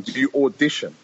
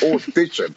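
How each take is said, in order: First: Said in the usual way. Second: Disbelieving "Audition?" pitched higher, in a voice unlike his own; incredulous echo. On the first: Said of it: "a guy said to me one time". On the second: Retold or imitated. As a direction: echo "Audition?" as if the idea is absurd. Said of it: "I just started bursting out laughing".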